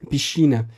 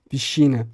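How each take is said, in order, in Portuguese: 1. A consoante antes do c soa como sh. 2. A consoante antes do c soa como sh.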